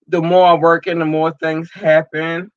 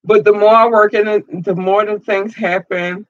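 First: Said in the usual way. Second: Higher, louder, faster rush as feeling breaks through; welling up with emotion. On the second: Real, not acted. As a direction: push it out before the tears come. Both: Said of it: "it's just an emotional process".

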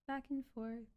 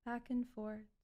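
The two takes are said the same way.

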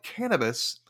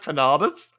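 First: Said in the usual way. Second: "cannabis" as kuh-NAH-bis, high and loud; "cannabis" with second-syllable AH, incredulous; joking mispronunciation. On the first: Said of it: "she kept calling it cannabis". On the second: Shown as a demonstration. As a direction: mockingly move the stress in "cannabis" to NAH. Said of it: "are you sure it's not".

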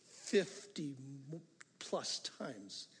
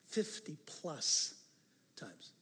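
First: Said in the usual way. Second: "Fifty plus times" drawn out slowly, each word weighted; slow emphatic count. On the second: Shown as a demonstration. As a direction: spell out the number slowly to drive it home.

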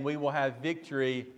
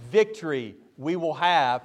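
First: Said in the usual way. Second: "Victory" put first and hit with emphasis; stress on Victory. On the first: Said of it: "rather than saying". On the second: Shown as a demonstration. Preacher showing Greek word order, stressing "Victory". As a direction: lean hard on "Victory" at the start. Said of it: "the emphatic word comes first".

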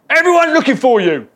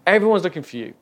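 First: High, very loud barging-in yell; exclaimed shout. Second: Raised voice, short of a shout; milder exclamation. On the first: Disciples barge in on Jesus's holy moment, exclaimed shout. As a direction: shout it at him as you burst in. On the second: Disciples come in to find Jesus, milder exclamation. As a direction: call it out firmly, holding back the yell. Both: Acted. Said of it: "they exclaim".

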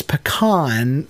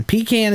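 First: Pecan as puh-KAHN; pecan, northern style, puh-KAHN; northern pronunciation. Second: Pecan as PEE-can; Pecan, PEE-can as in tin can; right way. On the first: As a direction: say pecan with stressed, drawn-out KAHN. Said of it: "which all the northern people say". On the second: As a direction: say Pecan with long ee, can fully voiced. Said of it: "Pecan is the right way". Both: Shown as a demonstration.

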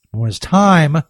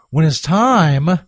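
First: Said in the usual way. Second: Slow, with time drawn out into a rise; slow teasing drawl. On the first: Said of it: "repeats the phrase". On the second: Shown as a demonstration. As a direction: stretch "when it's time" slowly, rising on time. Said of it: "repeats the phrase slower".

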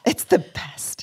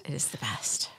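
First: Soft, breathy echo; whispering. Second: True whisper, no voice. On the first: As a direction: hush it like a secret. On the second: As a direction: breathe it out in a whisper. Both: Pretend. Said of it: "echo game, whispered".

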